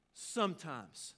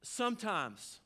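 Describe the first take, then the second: First: "Sometimes." stretched out very slowly, falling at the end; slow repeat. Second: Said in the usual way. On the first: Shown as a demonstration. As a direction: let "Sometimes." linger, slow and deliberate.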